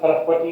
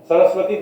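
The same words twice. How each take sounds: First: The word begins with an h sound. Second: The word begins with an s sound. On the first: "becomes Ha"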